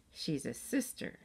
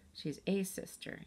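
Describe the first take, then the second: First: Slow correction, weight on "sister"; she's a SISTER, slowly and deliberately; stress on SISTER. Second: Slow, soft correction with "a" said as a full "ay"; she's AY sister, slowly; stress on A. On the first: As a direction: land carefully on "sister". Emily corrects Molly, first take. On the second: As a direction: lean on "a", pronounced like the letter. Emily corrects, stressing the article. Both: A narrator's reading.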